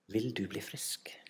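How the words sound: The question sounds warm and loving. The question shows care for the listener. "Jeg tror han spør med kjærlighet i stemmen"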